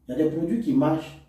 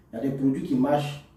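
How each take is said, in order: Both takes have the same delivery.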